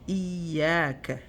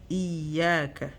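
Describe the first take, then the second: First: The ya sound is doubled and held. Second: The ya sound is doubled and held.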